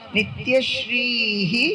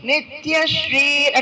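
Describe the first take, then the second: First: The word ends with a breathy 'hi' sound. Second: The word ends with an 'r' sound. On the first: The word stands alone. "বিসর্গ তো সংস্কৃততে উচ্চারণ কিরকম হয়, হা বলতে হয়" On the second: The word is joined to the next word. "দুটো যখন একসঙ্গে বলছি তখন সন্ধির নিয়ম দ্বারা ... একটা রেফ হয়ে যাবে"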